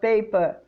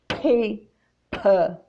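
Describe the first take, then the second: First: The p has no puff of air. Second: The p has a clear puff of air. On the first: The speaker calls it wrong. "It's not pape or pa pa or paper" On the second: The speaker calls it right. "you have to expel some air from your lungs"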